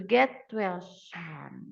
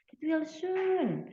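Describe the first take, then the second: First: "soon" said with an ah vowel, like "san"; slow "get well", then "soon" drawn out as "saan"; mispronounced SOON. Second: "soon" with a long oo vowel, like "soohn"; slow and higher, "soon" rounded to a clear oo; corrected SOON. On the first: Teacher reading a get-well example, "soon" slipping into "san". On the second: Teacher correcting the get-well example, "soon" said with long oo. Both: Shown as a demonstration. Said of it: "Nah, soon or soon?".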